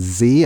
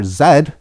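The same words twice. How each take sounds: First: The letter is said the American way. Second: The letter is said the Canadian way. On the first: "the United States goes with Z" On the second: "which is the Canadian way of saying it"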